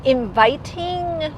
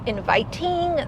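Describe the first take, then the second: First: Every sound of the word is pronounced very carefully. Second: Every sound of the word is pronounced very carefully.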